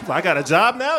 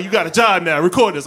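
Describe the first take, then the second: First: Loud, high question rising on "now". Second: Loud, high statement falling on "now"; firm order. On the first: Bystander asked to film, "now" rising in a loud question. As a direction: lift "now" as if taken aback. Surprised question, then echoed as answer. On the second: Man stopped by police drafting a bystander, "now" falling firmly. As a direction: land "now" as final, then command. Answer echoes question as an order. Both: Retold or imitated.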